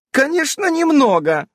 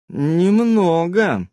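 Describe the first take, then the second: First: High, bright exaggerated «немного»; forced cheerful «немного»; overly cheerful. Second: Very slow, loaded «Немного»; slow doubtful «Немного»; odd intonation. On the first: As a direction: fake chirpy «Конечно, немного». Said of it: "преувеличенно бодрым голосом". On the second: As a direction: drag «Немного» out with hidden meaning. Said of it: "с непонятной интонацией произнесла". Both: A narrator's reading.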